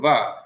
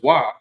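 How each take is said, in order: First: The word begins with a v sound. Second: The word begins with a w sound. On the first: This is the modern pronunciation. "in today, more recent Hebrew grammars, it's the va" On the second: This is the older pronunciation. "when this person took Hebrew, the wa was wa"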